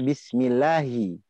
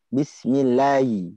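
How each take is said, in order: First: The h sound is clearly pronounced. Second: The h sound is swallowed and barely heard. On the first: The speaker calls it right. "Harusnya bismillahi. Betul nggak? H" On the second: The speaker calls it wrong. "Tapi kebanyakan bismillahi. ... Haknya mana?"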